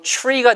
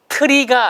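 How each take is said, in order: First: It starts with a ch-like sound before r. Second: It starts with a separate plain t sound. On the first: The speaker calls it right. "t 다음에 r 소리를 집어넣으면 ... tree가 되더라" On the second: The speaker calls it wrong. "트리가 아니고"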